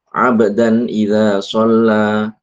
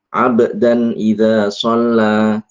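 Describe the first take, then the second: The two takes are said the same way.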